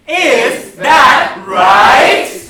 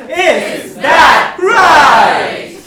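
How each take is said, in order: First: Loud, drawn-out chant with RIGHT sliding upward; upward inflection. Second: Loud, very slow chant with RIGHT swooping down; downward inflection. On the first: Host leads audience in a question chant, upward inflection on "right". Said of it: "say that with an upward inflection". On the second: Host leads audience in sarcastic chant, downward inflection on "right". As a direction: start high and let "right" fall heavily. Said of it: "how about a downward inflection?". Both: Shown as a demonstration.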